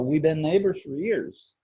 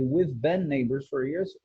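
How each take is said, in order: First: The 've sound is dropped almost completely. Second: The 've sound is clearly pronounced. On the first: "ele omite completamente we've been. Ele fala" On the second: "Em vez de"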